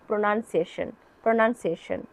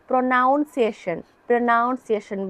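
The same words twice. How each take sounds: First: প্রনাউন্সিয়েশন with second syllable as "nun", short vowel; short "nan" sound in প্রনাউন্সিয়েশন, no "ow"; correct pronunciation. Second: প্রনাউন্সিয়েশন with second syllable as "nown", like noun; students' mistaken "ow" vowel in প্রনাউন্সিয়েশন; common student mispronunciation. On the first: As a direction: say প্রনাউন্সিয়েশন as pro-NUN-see-ay-shun. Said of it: "এটার উচ্চারণ হচ্ছে". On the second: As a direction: say প্রনাউন্সিয়েশন wrongly, pro-NOUN-see-ay-shun. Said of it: "বলেন, but না". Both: Shown as a demonstration.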